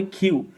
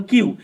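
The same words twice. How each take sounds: First: "কিউ" as "khiu", puff after the k; aspirated Q. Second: "কিউ" with a plain k, no puff; old unaspirated Q. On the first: Teacher showing how Q must be said, aspirated pronunciation. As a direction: release the k of "কিউ" with air. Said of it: "বলতে হবে কিউ". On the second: Teacher recalling how we used to say Q, unaspirated pronunciation. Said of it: "আমরা আগে বলতাম কিউ". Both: Shown as a demonstration.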